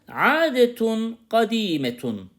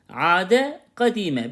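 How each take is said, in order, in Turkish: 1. Her kelime tam bir -tun ekiyle biter. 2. Her kelime -e ile biter ve duraklanır.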